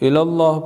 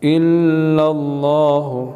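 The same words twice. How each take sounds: First: The vowel in 'Allah' is kept short. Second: The vowel in 'Allah' is drawn out long. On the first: The speaker calls it wrong. "इल्लल्लाह पढ़ना गलत है" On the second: The speaker calls it right. "अल्लाह खींचना भी है"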